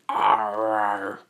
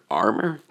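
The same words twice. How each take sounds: First: Drawn-out, sustained Titan word; Titan mouth voice. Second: ARMOR said short with rising pitch; questioning echo. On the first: Izuku repeats it through the Titan's mouth, drawn-out creature voice. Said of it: "Izuku say it again". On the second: Listener checks what the Titan said, ARMOR as a rising question. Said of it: "He's like". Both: Acted.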